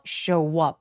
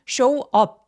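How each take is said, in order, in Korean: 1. 두 단어는 이어서 발음해요. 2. 두 단어는 따로 발음해요. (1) "연결해서" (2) "이렇게 나눠서 발음하지 마시고요"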